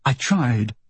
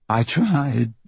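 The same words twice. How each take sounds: First: Said in the usual way. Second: A light crack on I tried, barely holding; I tried, voice catching and giving way; lightly cracking voice; voice breaking. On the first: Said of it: "she has to repeat herself". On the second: A narrator's reading. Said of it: "Her voice breaks on the words".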